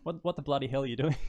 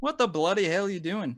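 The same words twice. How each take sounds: First: Mock challenge in an Aussie accent, a bit higher; Australian example. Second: Higher mock outburst in put-on Aussie, slipping towards English; attempted Australian accent. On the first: Coaching a guest on Aussie phrases in an Australian accent. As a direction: model the Australian phrase for a learner. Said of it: "Just try, like". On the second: Guest copying the host's phrase in an imitated Australian accent. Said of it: "That's kinda like a English". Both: Shown as a demonstration.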